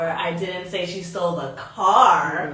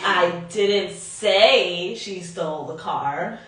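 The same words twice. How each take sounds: First: The stress is on the word car. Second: The stress is on the word say.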